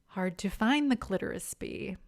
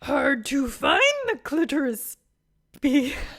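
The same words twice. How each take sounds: First: It is said in her normal voice. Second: It is said in an imitation of Yoda's voice.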